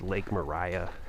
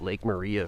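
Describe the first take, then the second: First: The name ends sounding like 'Mariah'. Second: The name ends sounding like 'Maria'. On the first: The speaker calls it right. "it is pronounced" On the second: The speaker calls it wrong. "I called it Lake Maria for a, a long time"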